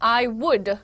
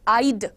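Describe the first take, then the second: First: It is said as two separate full words. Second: It is said as one contracted syllable. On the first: "इसका full version है" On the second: "जिसको मैंने कैसे pronounce किया"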